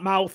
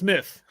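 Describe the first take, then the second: First: The vowel is 'ow' as in 'mouth'. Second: The vowel is a short 'uh' sound. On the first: The speaker calls it wrong. "it's not mouth" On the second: The speaker calls it right. "it's myth"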